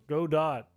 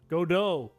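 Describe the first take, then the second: First: The word ends with a sounded t. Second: The word ends without a t sound. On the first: "I said go dot the first time" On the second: "I believe the go do"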